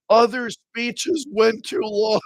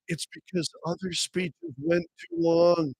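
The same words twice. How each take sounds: First: Stretched out slowly in mock disbelief; incredulous repeat. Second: Said in the usual way. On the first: Host repeats the party's excuse to ridicule it, drawn-out disbelief.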